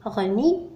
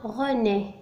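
First: غني with a final "ee" instead of "é"; غني, René misread with an i sound at the end; mispronunciation demo. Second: René ending in a clear "é", not "ee"; René carefully sounded with a closed é ending; correct pronunciation. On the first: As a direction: say غني as "reu-NEE", the wrong ending. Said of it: "لم أقل غني". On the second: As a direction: say René slowly as "reu-NÉ". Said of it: "إنما René". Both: Shown as a demonstration.

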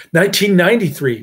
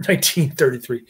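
First: Nineteen ninety-three said louder as a correction; "Nineteen ninety-three" corrected with emphasis; corrective stress. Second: Said in the usual way. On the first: Real, not acted. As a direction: fix the year, punching "Nineteen ninety-three".

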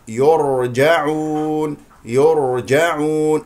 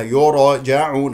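First: Slow يرجعون, R held with no bounce; correct still R. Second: يرجعون with a little vowel after the R; bouncing R, wrong. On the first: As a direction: draw out يرجعون on a steady ر. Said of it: "هكذا بهذه الطريقة". (يرجعون براء ساكنة مستقرة) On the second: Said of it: "خطأ". (يرجعون بقلقلة الراء خطأً) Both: Shown as a demonstration.

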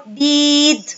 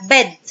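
First: بيد with the vowel wrongly stretched out long. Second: بيد with a short, quick vowel. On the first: Teacher shows pupils the wrong way, بيد with a long vowel. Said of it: "لكن انا هنا مش هعرف اقول". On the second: Teacher corrects it for pupils, بيد with a short vowel. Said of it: "لا". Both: Shown as a demonstration.

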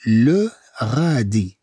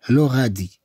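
First: "le غادي" drawn out slowly; slow pronunciation model for learners; slow syllables. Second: Said in the usual way. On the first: Shown as a demonstration. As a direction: hold each syllable of "le غادي".

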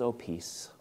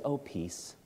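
First: Soft, tender voice of Jesus greeting his friends; gentle Jesus. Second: Very soft, tender greeting; gentle Jesus. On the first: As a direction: breathe the peace out softly. Jesus comes and speaks. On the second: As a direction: let the peace fall quietly. Jesus voiced in retelling. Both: Acted.

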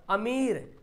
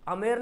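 First: अमीर with a long ee, "ameer"; correct stretched reading. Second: अमीर misread as "amer" with e; wrong unstretched reading. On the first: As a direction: hold the ee in अमीर. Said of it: "याय को खींच कर पढ़ते हैं". (अमीर में ई खींचकर) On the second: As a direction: swap the ee of अमीर for e. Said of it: "अमीर नहीं पढ़ते इसको". (अमीर को "अमेर" बोलें) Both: Shown as a demonstration.

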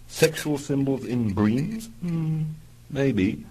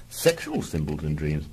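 First: Slow, rising intrigued question; linger, curious. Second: Said in the usual way. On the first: Acted.

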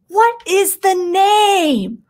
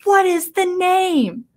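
First: High, loud and slow, drawn out demand; demanding shout. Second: High, loud, slow question shoved in his face; demanding shout. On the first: Ahsoka demanding the name from the dying prime minister, loud and slow. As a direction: bark the question right in his face. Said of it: "That's how she says it too". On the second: Ahsoka in the dying man's face, slow loud demand. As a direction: demand it, drawing out every word. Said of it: "and says". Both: Retold or imitated.

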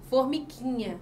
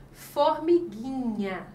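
First: Said in the usual way. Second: "formiguinha" drawn out slowly, "gui" said as gi with no U sound; silent U. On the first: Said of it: "porque a letra U não foi pronunciada". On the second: Shown as a demonstration. Teacher giving a digraph example, slow "formiguinha" with silent U. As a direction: stretch "formiguinha" syllable by syllable, hard g straight into i. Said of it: "a letra U não é pronunciada".

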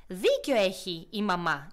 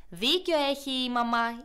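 First: Slow, lower, stressing Δίκιο; measured big-sibling agreement on «Δίκιο»; lightly voiced eldest hedgehog, slow. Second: Slow, louder chorus leaning on Δίκιο; the others echo «Δίκιο» louder; light chorus of small hedgehogs; little hedgehogs together. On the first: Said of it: "είπε το πιο μεγάλο". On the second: Acted. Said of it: "είπανε και τα άλλα".

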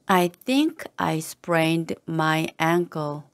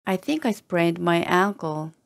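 First: Slow, careful and distinct; slow model reading. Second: Said in the usual way. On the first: Shown as a demonstration. Teacher modelling the phrase for learners, slow and careful. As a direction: take it slowly so they can copy. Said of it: "teacher models slow first reading". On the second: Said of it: "teacher repeats at normal pace".

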